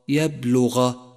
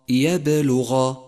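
First: The b is flat without an echoing bounce. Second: The b has a strong echoing bounce. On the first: The speaker calls it wrong. "إذا أهملتها لا يتضح نطق الحرف، أي هكذا" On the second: The speaker calls it right. "فتأتي القلقلة فتقوي الحرف فيصبح لفظه هكذا"

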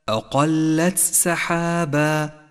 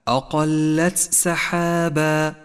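The two takes are said the same way.

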